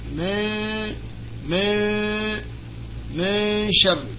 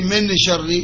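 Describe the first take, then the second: First: The n sound is hidden and nasalized. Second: The n sound is pronounced clearly. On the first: The speaker calls it right. "here we mean to hide this noon" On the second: The speaker calls it wrong. "We don't say min sharri"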